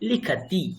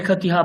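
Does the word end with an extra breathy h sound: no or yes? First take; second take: no; yes. First: The word ends cleanly on the final vowel. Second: The word ends with an added breathy h sound. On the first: The speaker calls it right. "তো কাজেই হকার আসবে না। তো কি হবে? লিখাতি।" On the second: The speaker calls it wrong. "লিখতি হ কেন বলছেন, এখানে তো কোনো বিসর্গ নেই"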